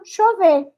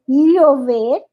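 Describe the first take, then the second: First: The ll sounds like ch or sh. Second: The ll sounds like a clear double l. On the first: "E o argentino" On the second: "O panamenho e boliviano é"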